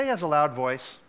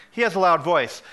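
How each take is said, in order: First: Said in the usual way. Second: "He has a loud voice" restated louder and firmly; emphatic repeat. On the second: Real, not acted. Pastor stressing to the congregation "He has a loud voice", emphatic. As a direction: drive home "He has a loud voice" as a firm statement.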